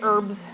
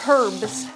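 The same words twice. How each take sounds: First: The word begins with a vowel, no H. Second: The word begins with an audible H sound. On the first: This is how Americans say it. "Americans don't say the H in herbs. We say herbs" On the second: This is how non-Americans say it. "You guys say herbs"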